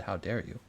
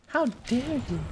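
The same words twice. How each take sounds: First: Said in the usual way. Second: Much higher, shrill mock indignation; mock outraged girl. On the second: Streamer mimicking the activist's famous line, high and shrill. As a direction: squeal the outrage like a scolding child. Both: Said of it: "she said".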